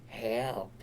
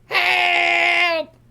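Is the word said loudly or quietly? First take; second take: quietly; loudly. First: The word is said softly and quietly. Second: The word is shouted loudly and urgently. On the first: "sometimes I'd just do it kind of quiet" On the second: "I'd just be in a state of constant panic"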